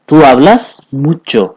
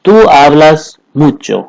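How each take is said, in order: First: "तू hablas mucho" said very slowly, word by word; slow, clear teaching repeat. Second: Said in the usual way. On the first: Shown as a demonstration. Teacher repeating the Spanish line for students, very slowly. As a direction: spell it out slowly so students catch every word. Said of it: "ठीक है". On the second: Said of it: "तुम बहुत बोलते हो".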